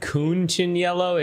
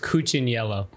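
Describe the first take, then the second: First: The name has an extra n sound early on. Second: The name has no extra n sound early on. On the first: The speaker calls it wrong. "It sounded like you said Cunciniello" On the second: The speaker calls it right. "It's it's Cuciniello"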